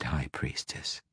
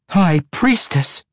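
First: Mocking title. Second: Louder, higher, slow High Priestess in protest; yelled protest. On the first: Girl belittles Quenthel with her old title, soft mocking. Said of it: "Go ahead". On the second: Matron mother protests the demotion, slow loud yell. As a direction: shout High Priestess back as an outrage. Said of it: "Quenthel yelled in protest". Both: A narrator's reading.

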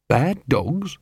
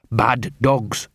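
First: "Bad dogs" echoed with rising questioning tune; puzzled question. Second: "Bad dogs" as a statement, falling at the end; firm confirmation. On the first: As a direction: ask "Bad dogs" back, ending upward. Angua questions Gaspode's phrase. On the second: Gaspode confirms the phrase.

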